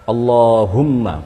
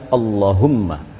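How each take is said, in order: First: The vowel in Allah is drawn out long. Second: The vowel in Allah is cut short. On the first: The speaker calls it right. "Jadi Allah, Allahumma" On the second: The speaker calls it wrong. "bukan Allahumma"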